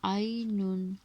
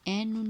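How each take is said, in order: First: The first vowel glides from 'a' to 'i'. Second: The first vowel is a plain 'e' sound. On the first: The speaker calls it right. "आइनुन खैरुन" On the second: The speaker calls it wrong. "ऐनुन नहीं बोलेंगे"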